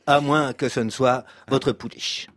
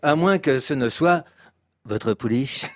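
First: The word pouliche gets no special emphasis. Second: The word pouliche is emphasized after a pause. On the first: The speaker calls it wrong. "C'est bien, mais vous pourriez peut-être un petit peu accentuer sur ce mot-là" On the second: The speaker calls it right. "accentuer sur ce mot-là, pouliche"

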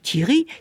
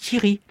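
First: The word is said with a changing pitch. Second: The word is said on a flat pitch. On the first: "c'est tout à fait différent" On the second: "en le disant à la française, Thierry, plat"

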